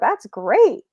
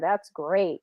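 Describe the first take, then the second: First: The pitch rises like a question. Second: The pitch stays flat throughout.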